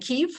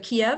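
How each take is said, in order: First: The name is said closer to the Ukrainian form. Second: The name is said in the older English form. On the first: This signals support for Ukraine. "a pronunciation closer to the Ukrainian" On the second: This is the form people had always used. "instead of Kiev"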